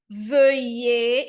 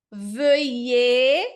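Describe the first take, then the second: First: "veuillez" again, loud, rising; French pronunciation. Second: "veuillez" as vœje, loud, rising; French pronunciation. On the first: Teacher's second loud take of veuillez. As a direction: repeat "veuillez" with rounded lips. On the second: Teacher modelling veuillez for students, loud. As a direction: round the lips for "veuillez". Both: Shown as a demonstration. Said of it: "a gente vai dizer".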